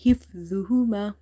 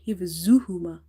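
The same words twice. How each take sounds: First: حفظهما as hif-dhu-huma, heavy "dh", no z buzz; tongue tip on the teeth for the dh in حفظهما; correct dha. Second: حفظهما misread as hif-zu-huma with a buzzing z; wrong z sound. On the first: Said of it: "this is not the za, the other one. This is". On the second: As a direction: swap the dha in حفظهما for a plain z. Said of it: "Never read it". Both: Shown as a demonstration.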